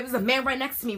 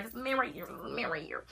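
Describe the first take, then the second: First: Said in the usual way. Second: Hushed, unvoiced whisper; frightened hushed whisper. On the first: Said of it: "plain take before the whisper". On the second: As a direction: whisper it so he can't hear. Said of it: "whispering warning to mom by text".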